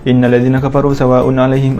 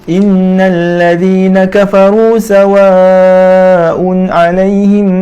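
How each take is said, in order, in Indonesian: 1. Bacaan ini dibaca dengan tempo sangat cepat. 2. Bacaan ini dibaca dengan tempo cepat. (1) "lebih laju lagi... kita kena baca cepat-cepat" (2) "Contoh bacaan hadar yang masih dalam mengikut syarat tajwid"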